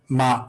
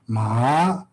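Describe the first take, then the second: First: The syllable is said on a level, regular tone. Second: The syllable is said with a rising tone. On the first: The word means come. "the regular tone is like the way they teach it is like ma" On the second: The word means dog. "is rising tone ma"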